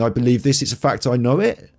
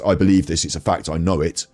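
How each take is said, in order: First: The voice rises at the end like a question. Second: The voice falls at the end like a statement. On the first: It seeks agreement instead of asserting a fact. "you row up at the end" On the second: It is asserted as a fact. "saying your thing is a fact"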